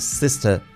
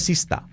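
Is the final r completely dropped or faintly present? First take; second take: faint; dropped. First: The final r is faint, with a slight twist. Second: The final r is completely dropped. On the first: The speaker calls it right. "y no es sista y peipa, es sister" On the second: The speaker calls it wrong. "nos la enseñan como, no se hace, se dice sista"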